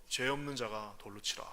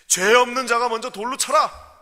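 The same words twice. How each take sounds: First: Quiet stern voice. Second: Much louder and higher verdict; stern command. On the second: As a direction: thunder the judgment. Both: Acted. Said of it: "정말 준엄한".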